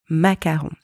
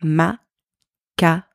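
First: Said in the usual way. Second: "Macaron" slowly split into ma, ka, ron; "Macaron" dissected slowly, French R and nasal final vowel; syllable-by-syllable macaron. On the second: Shown as a demonstration. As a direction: break "Macaron" into three separate French syllables with pauses. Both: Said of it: "let's dissect the pronunciation of that word".

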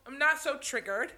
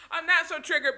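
First: Said in the usual way. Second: Laughing it off, higher and fast; amused self-mocking repeat. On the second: Real, not acted. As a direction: laugh through the words at yourself. Repeats phrase, then laughs.

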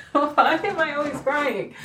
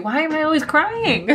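First: High, slow, laughing wail on "am"; laughing through tears. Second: High, squeaky crying whine on "crying"; teary whine. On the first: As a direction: laugh it out slowly, still crying. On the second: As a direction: whine it high through tears. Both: Real, not acted.

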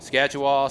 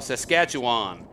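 First: Saskatchewan as "Scatch-uh-wah", louder; echoed mispronunciation. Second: Saskatchewan slow, with every syllable sounded; careful full pronunciation. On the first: Retold or imitated. Dad echoing the child's attempt, Saskatchewan as "Scatch-uh-wah". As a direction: drop the opening "Sas" and final n of Saskatchewan. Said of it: "Say it, Remy". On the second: Shown as a demonstration. Dad showing the child the word, Saskatchewan slow and complete. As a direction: draw out Saskatchewan as "Sas-SKATCH-uh-wahn". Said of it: "that's kinda hard to say".

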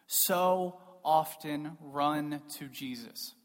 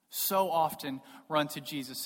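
First: Slow, drawn-out delivery with pauses; slow and weighty. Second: Said in the usual way. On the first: Real, not acted. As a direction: space out "so often run to Jesus". Repeats line slowly for weight.

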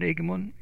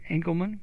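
First: Engelmann blurred as "Igman" with the middle syllable dropped; first try at the name. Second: Engelmann said in full as "ENG-kel-mann" with a k sound; corrected pronunciation. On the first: Real, not acted. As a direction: Engelmann said quickly as two slurred syllables, rising. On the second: Shown as a demonstration. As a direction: Engelmann with three clear syllables, stress on ENG.

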